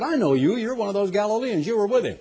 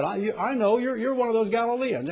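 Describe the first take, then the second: First: Higher, pointed accusation; accusing servant girl. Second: Higher, halting retelling of the accusation; stammering accusation. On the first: Servant girl accuses Peter by the fire, higher and pointed. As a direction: point the finger at him. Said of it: "a young girl came up and said". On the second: Preacher retells the second girl's accusation, higher and halting. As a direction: stumble through the girl's words. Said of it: "young lady came and said". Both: Retold or imitated.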